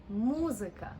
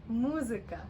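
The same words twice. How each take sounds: The two takes are said the same way.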